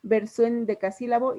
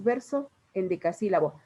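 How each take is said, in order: First: VERSO EN DECASÍLABO de corrido, SO-EN en una sola sílaba; con sinalefa. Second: VERSO, pausa, EN DECASÍLABO, sin unir las vocales; palabras separadas. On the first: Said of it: "así lo hablamos". (las palabras unidas, como al hablar) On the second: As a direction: separa VERSO de EN DECASÍLABO con un corte claro. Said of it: "cuando hablamos no decimos". (dicho con las palabras separadas) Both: Shown as a demonstration.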